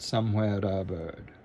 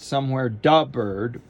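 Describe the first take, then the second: First: A light, subtle flap links the words together. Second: A heavy, full d sound comes before the vowel. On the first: The speaker calls it right. "Very subtle, but very elegant" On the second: The speaker calls it wrong. "It's not somewhere da bird"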